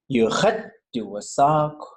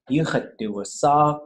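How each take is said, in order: First: The word khat is said very high and emphasized. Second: The word khat stays level with the others. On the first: The speaker calls it wrong. "And that khat is like super high" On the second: The speaker calls it right. "it should just be"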